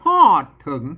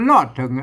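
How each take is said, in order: First: The first word starts with an h sound. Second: The first word starts with an r sound.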